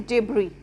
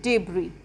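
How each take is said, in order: Both takes have the same delivery.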